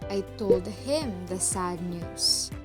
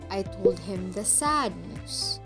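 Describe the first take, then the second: First: The word "him" carries the main stress. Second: The word "sad" carries the main stress. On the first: It says who received the news. "To whom did I relay the news?" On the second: It says what kind of news it was. "What kind of news was relayed to him?"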